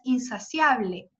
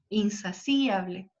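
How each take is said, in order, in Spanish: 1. La i y la a se unen en una sola sílaba. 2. La i y la a forman sílabas separadas. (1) "como hoy la pronunciamos" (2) "sino que es insaciable"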